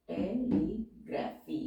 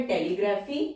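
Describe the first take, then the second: First: टेलीग्राफी said slowly and softer; slow dictation. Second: Said in the usual way. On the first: Shown as a demonstration. (टेलीग्राफी को धीमे, हल्के स्वर में बोलना) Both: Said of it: "word है टेलीग्राफी".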